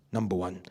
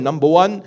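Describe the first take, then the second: First: Number one said low and soft with a falling close, wrapping up the point; quiet recap. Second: Number one said loud with a rising end, opening the list; announcing the first point. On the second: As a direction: launch "Number one" upward to open the point. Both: Shown as a demonstration.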